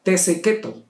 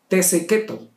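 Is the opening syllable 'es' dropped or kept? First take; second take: dropped; dropped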